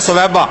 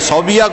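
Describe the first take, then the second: First: The name begins with 'su-wai' and ends 'ba'. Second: The name begins with 'sau' and ends 'biya'. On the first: The speaker calls it right. "से पर पेश है, वाव पे जबर है" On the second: The speaker calls it wrong. "सौबिया कोई लफ्ज नहीं"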